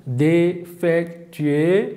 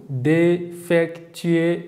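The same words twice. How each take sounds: First: Defectueux repeated very slowly, syllable by syllable; slow repeat of defectueux for the class; French model word. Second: Defectueux stretched very slowly, syllable by syllable; teacher drills defectueux slowly; French model word. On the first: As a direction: drill defectueux again at half speed. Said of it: "tekrar ediyorum". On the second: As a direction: say defectueux at half speed, rising. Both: Shown as a demonstration.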